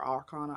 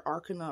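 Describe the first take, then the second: First: "arcana" as ar-KAH-nuh, open middle vowel; alternate pronunciation. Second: "arcana" as AR-kuh-nuh, unstressed middle; alternate pronunciation. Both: Shown as a demonstration. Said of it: "don't really know how you pronounce it".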